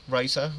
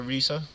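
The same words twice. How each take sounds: First: First syllable of "Risa" rhymes with "eye"; Risa as RYE-sa. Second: First syllable of "Risa" like "see"; Risa as REE-sa. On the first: Coach checking a player's name, "Risa" said RYE-sa. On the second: Coach checking a player's name, "Risa" said REE-sa. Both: Real, not acted. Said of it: "how do I pronounce your name".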